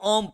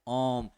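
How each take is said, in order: First: The vowel is short and quick. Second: The vowel is drawn out and prolonged. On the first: The speaker calls it wrong. "इसको भी लोग ओम पढ़ता है" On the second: The speaker calls it right. "इसको प्लुत स्वर क्या है?"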